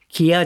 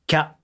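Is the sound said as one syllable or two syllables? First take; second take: two syllables; one syllable. First: It is split into two syllables, ki and ya. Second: It is blended into a single syllable, kya. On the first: The speaker calls it wrong. "きやじゃなくて" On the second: The speaker calls it right. "きゃと一音節で聞かせなさい"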